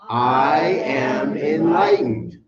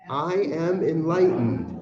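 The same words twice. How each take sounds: First: It is said very loudly, almost called out. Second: It is said in a plain, ordinary way.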